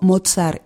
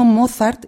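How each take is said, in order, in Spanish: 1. El nombre se dice con sonidos alemanes. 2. El nombre se dice con sonidos españoles. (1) "y no Mozart" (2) "estoy diciendo Mozart"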